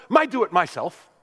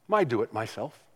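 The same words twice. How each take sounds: First: Put-on higher, louder little-boy insistence; lightly voiced stubborn three-year-old; insistent toddler. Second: Said in the usual way. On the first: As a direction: grandson refusing help, mock toddler voice.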